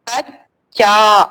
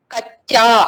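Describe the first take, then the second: First: कच्चा said very slowly, doubled च held; slowly stretched word. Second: Said in the usual way. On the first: Shown as a demonstration. Teacher slowly stretching कच्चा for the class. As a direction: drag out कच्चा syllable by syllable. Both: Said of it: "तो कच्चा देखिए आप लोगों".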